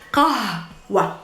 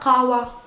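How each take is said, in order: First: A strong h sound comes before the w. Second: No h sound comes before the w. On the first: The speaker calls it right. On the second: The speaker calls it wrong. "not qawa"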